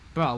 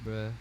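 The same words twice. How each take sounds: First: The word is said hard and aggressively. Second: The word is said softly and lazily. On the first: This is how it used to be said. "More aggressive" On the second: This is how it is said now. "more softer and more like as if you're high on drugs"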